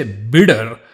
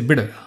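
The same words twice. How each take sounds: First: Bitter louder and heavier, the sound overstressed; overdone wrong version. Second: Bitter lightly as "bidder"; easy tapped D. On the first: Teacher showing what not to say, bitter heavily overpronounced. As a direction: exaggerate the middle of bitter. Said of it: "You don't say bitter". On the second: Teacher showing the right way, bitter with a light D. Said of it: "you just say bitter". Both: Shown as a demonstration.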